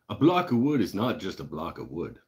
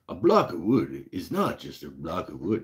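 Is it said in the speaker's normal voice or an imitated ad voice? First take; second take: normal voice; imitated voice. First: It is said in the speaker's normal voice. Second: It is said in an imitated Lee Valley ad voice.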